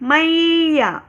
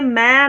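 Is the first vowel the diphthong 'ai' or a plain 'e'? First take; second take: ai; e. First: The first vowel is the diphthong 'ai'. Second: The first vowel is a plain 'e' sound. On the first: The speaker calls it right. "हम पढ़ते हैं मैया, आई मैया" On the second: The speaker calls it wrong. "इसे मैया नहीं"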